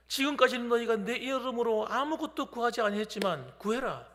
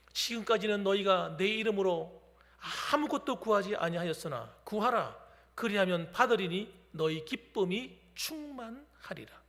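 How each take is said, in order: First: Said in the usual way. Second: Solemn scripture reading. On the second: Acted. Preacher reads the Gospel verse to the congregation, solemnly. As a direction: read the verse like holy words, unhurried.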